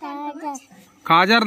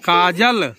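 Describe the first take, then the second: First: The second consonant is an r sound. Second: The second consonant is an l sound. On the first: The speaker calls it wrong. "काजर नहीं" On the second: The speaker calls it right. "काजल का"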